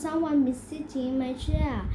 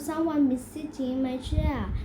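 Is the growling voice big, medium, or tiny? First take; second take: medium; medium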